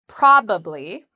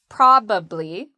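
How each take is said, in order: First: The word is said with three syllables. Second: The word is said with three syllables.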